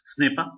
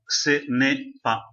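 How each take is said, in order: First: It is said quickly, run together as one word. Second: It is said slowly, in separate pieces. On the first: "later on, you will learn to pronounce it faster" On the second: "I'm telling you in slow motion or or, or else in little breakups"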